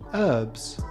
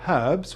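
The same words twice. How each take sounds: First: The H is silent, American style. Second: The H is pronounced, British style.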